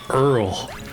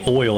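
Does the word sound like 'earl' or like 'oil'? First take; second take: earl; oil. First: The word sounds like 'earl', with an 'er' vowel. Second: The word sounds like 'oil', with an 'oy' vowel. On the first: This is the Southern way of saying it. "I don't say Earl" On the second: This is the speaker's own, less Southern way. "I say oil"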